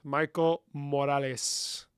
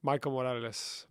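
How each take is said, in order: First: Slow, savoring "Michael Morales"; slow savoring repeat; drawn out. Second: Said in the usual way. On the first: Shown as a demonstration. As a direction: stretch "Michael Morales" out lovingly. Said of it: "drawn-out repeat". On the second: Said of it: "plain naming".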